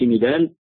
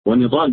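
First: "ندال" with a thin, non-emphatic d; wrong light dal. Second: "ونضال" with a heavy, emphatic d; correct dad. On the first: Teacher shows what not to say, light dal. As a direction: say "ندال" with plain d replacing dad. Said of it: "ما بقولش". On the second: Teacher contrasts the name for students, correct dad. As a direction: say "ونضال" with dad, not light dal. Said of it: "ما بقولش ندال". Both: Shown as a demonstration.

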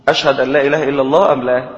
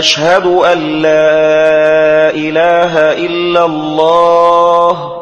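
First: Quick spoken question, not chanted, from أشهد to أم لا; asked as question. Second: Very slow muezzin chant, opening vowel of أشهد stretched; questioning hamza error. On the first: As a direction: put أشهد أن لا إله إلا الله to listeners as a brisk query. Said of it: "وكأنه يسأل الناس". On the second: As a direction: chant أشهد with a long "aaa" at the start. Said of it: "إدخال الهمز على أشهد". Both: Shown as a demonstration.

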